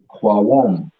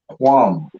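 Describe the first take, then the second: First: The word is split into two separate syllables. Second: The word is said as one smooth syllable. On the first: "If the Kwa is separate, then wouldn't it be Kwawam?" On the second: "We pronounce it as Quam"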